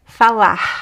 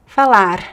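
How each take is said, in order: First: The final R sounds like a breathy H. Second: The final R is a quick tongue flap. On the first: "So it could be here, h" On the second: "It could be like the flap T"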